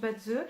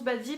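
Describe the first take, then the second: First: The word ends in an 'uh' vowel. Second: The word ends in an 'ee' vowel. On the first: The speaker calls it right. "ça se prononce Badze" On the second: The speaker calls it wrong. "Certains prononcent Badzi parce qu'ils ne savent pas"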